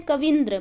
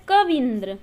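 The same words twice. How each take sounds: First: कविंद्र said quickly with a short vi; mistaken form. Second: कविंद्र with a long, leaned-on vee, ka-veen-dra; correct form. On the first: Teacher showing the form we wrongly make, mistaken pronunciation. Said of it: "but ऐसा ना हो के". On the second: Teacher answering what it should be, correct long-vowel pronunciation. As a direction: stretch the ee in कविंद्र. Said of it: "वह क्या होता है". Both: Shown as a demonstration.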